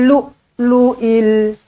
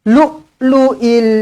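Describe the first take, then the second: Both takes have the same delivery.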